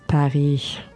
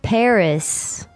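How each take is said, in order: First: The final S sound is left silent. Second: The final S sound is pronounced. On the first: The speaker calls it right. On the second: The speaker calls it wrong.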